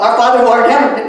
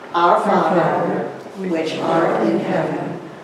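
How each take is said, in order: First: It is said quickly, rushed. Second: It is said slowly and deliberately.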